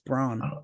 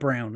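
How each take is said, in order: First: The vowel sounds like the 'aw' in law. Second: The vowel sounds like the 'ow' in cow. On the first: The speaker calls it right. "It's brawn" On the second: The speaker calls it wrong. "It's not brown"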